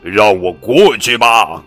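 It is shouted in a monster's voice.

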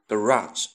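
It is said with an American pronunciation. "在美国呢，我们通常读着garage"

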